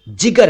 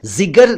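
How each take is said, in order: First: जिगर said as "jigar"; correct j sound. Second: जिगर said as "zigar"; wrong z sound. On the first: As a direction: begin जिगर with j, not z. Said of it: "जिगर है". (जिगर का सही उच्चारण, ज से) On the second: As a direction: begin जिगर with z instead of j. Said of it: "जिगर नहीं". (जिगर का ग़लत उच्चारण, ज़ से) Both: Shown as a demonstration.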